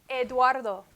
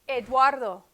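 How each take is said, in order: No difference in how they are said.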